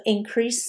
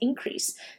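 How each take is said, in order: First: The stress falls in the usual verb position. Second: The stress is shifted to the noun position. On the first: It is used as a verb. "它可以当动词" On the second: It is used as a noun. "当名词的时候呢，要特别注意的是它的这个重音呢会稍微换一下"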